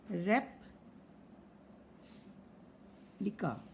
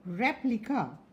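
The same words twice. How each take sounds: First: Very slow, soft "रेप्लिका", rep... lika; teacher splitting "रेप्लिका" quietly into parts; syllable by syllable. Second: Said in the usual way. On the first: Shown as a demonstration. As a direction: leave a long silence inside "रेप्लिका" after "rep". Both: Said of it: "जितने syllable है".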